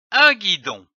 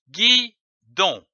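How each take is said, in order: First: Said in the usual way. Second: "guidon" split into gui, pause, don; syllable by syllable. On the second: Shown as a demonstration. Teacher joining syllables for readers, "guidon" split gui... don. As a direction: say "guidon" as two separate beats. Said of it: "L'association de ces syllabes donne".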